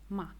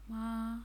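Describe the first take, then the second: First: The pitch falls throughout. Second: The pitch stays level throughout. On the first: "the fourth goes down" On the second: "The simple tone, which is ma"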